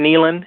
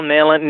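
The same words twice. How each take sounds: First: Nehlen with a long ee, like NEE-len; corrected pronunciation. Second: Nehlen with a short e, like NELL-en; mispronounced name. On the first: Guest corrects himself on the candidate's name, saying Nehlen as NEE-len. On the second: Guest slips on the endorsed candidate's name, saying Nehlen as NELL-en. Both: Real, not acted. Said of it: "It's pronounced Nehlen".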